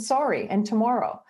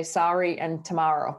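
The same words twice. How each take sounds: First: "sorry" and "tomorrow" with a rounded "or" vowel, pitched up; Canadian pronunciation. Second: "sorry" and "tomorrow" with an open "ar" vowel; American pronunciation. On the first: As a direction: say "sorry" as "SORE-ee", "tomorrow" as "to-MORE-oh". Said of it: "that's how we say 'em". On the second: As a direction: say "sorry" as "SAR-ee", "tomorrow" as "to-MAR-oh". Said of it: "I had to learn how to say". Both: Shown as a demonstration.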